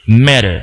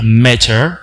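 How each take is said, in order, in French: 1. Le t est battu, comme un r rapide. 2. Le t est un son t clair. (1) "un américain va dire matter" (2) "Un britannique va dire matter"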